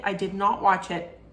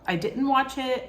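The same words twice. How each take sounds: First: "did not" spelled out, each word hit; firm correction, "not" leaned on; stress on NOT. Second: Said in the usual way. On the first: Shown as a demonstration. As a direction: insist on the "not" in "I did not watch it".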